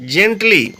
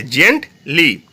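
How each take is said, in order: First: Said in the usual way. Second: "gently" broken into two syllables, jent, li; split into syllables. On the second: Shown as a demonstration. Teacher showing two syllables, "gently" said in separate parts. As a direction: pause between both syllables of "gently". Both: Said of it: "দেখো দুটো syllable রয়েছে".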